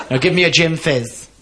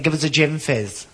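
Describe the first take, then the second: First: Mock-cross, firmer demand; proper cross. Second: Slow, lightly camp order; camp customer. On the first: Camp customer demanding his drink from barman, mildly cross. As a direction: insist with a touch of camp temper. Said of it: "I'm getting proper cross". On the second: Acted. Camp man ordering from the barman, slow coy voice. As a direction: draw out the order with a camp touch. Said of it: "I'm only acting when I do this".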